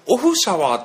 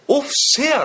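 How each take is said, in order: First: The name ends with a 'shawaa' sound. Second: The name ends with a 'shea' sound. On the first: The speaker calls it wrong. "オフシャワーって俺たち言ってたけど、どうやら違うらしくて" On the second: The speaker calls it right. "オフシェアらしいね"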